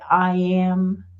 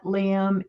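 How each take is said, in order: First: The name begins with a vowel, no L. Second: The name begins with an L sound. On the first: The speaker calls it right. "It's I am" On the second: The speaker calls it wrong. "did I pronounce that wrong?"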